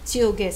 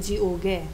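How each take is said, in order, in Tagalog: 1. Ang salita ay nagsisimula sa walang-tinig na tunog ch. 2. Ang salita ay nagsisimula sa may-tinig na tunog j. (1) "Pero pag binigkas, Chiuge" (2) "Hindi niyo yan babasahin ng Jiuge"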